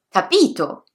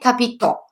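First: The stress is on the second syllable. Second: The stress is on the last syllable. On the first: "sulla penultima" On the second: "L'accento può cadere sull'ultima sillaba"

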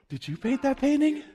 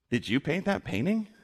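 First: It sounds admiring, like a compliment. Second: It sounds sarcastic, like an insult.

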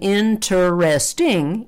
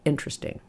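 First: Every syllable, including the middle one, is pronounced. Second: The unstressed middle syllable is dropped. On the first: "instead of saying interesting" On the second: "we can drop the part in the middle and say interesting"

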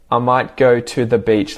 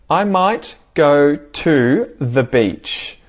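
First: The words are linked together and flow smoothly. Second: Each word is pronounced clearly and separately. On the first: "Like I'll link the words" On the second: "I'd say it well enunciated first"

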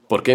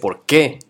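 First: It is said as a plain statement word. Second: It is said as a question.

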